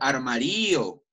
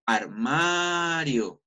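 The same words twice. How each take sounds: First: Armario misstressed as ar-ma-RÍ-o, long Í; wrong stress. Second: Armario with a long, drawn-out A in MA; stress on the MA. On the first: Teacher shows how nobody says armario, stress wrongly on RÍ. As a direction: drag out the RÍ in "armario". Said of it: "Yo nunca digo armario". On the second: Teacher shows students where armario is stressed, long stressed MA. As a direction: stretch "armario" slowly on its stressed MA. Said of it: "de manera arrastrada o de manera larga". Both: Shown as a demonstration.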